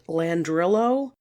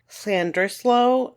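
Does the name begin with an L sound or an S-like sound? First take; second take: L sound; S-like sound. First: The name begins with a plain L sound. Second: The name begins with an S-like sound. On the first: The speaker calls it wrong. "It looks like it's pronounced Landrillo" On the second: The speaker calls it right. "double L's in Welsh have almost an S sound to them"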